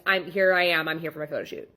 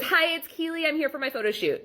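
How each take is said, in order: First: Said in the usual way. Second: Imitating Keely, pitched higher and airy; mock client voice. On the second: Photographer mimics late client announcing herself, higher mock voice. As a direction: play the late client breezily unaware.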